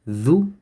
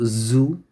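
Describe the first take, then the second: First: It starts with a 'th' sound, tongue between teeth. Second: It starts with a buzzing 'z' sound. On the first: The speaker calls it right. "Dhu is when you bite the tip of the tongue" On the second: The speaker calls it wrong. "not zu"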